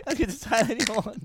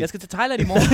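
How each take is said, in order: First: Said through laughter; laughing. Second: Said in the usual way. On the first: Real, not acted. Joking that he is off to Thailand tomorrow, laughing. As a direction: giggle through the line.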